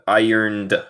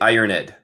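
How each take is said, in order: First: The ending is a bare D sound. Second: The ending is said as an extra syllable. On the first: The speaker calls it right. "El E siempre es silento, siempre es muda" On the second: The speaker calls it wrong. "no se dice ironed"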